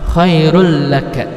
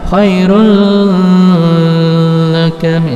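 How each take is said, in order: First: The sounds merge quickly with no lengthening. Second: The sound is held long before the next syllable. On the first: The speaker calls it right. "dimasukkan ke la tapi cepat" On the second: The speaker calls it wrong. "jangan khairul laka, salah. Tidak dipanjangkan tiga harokat"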